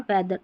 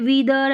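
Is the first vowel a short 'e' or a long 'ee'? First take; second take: short e; long ee. First: The first vowel is a short 'e' sound. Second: The first vowel is a long 'ee' sound. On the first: The speaker calls it right. "ई ए का ए sound आ रहा है" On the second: The speaker calls it wrong. "ऐसे नहीं बोल रहे हैं ई ए को ई पढ़िए"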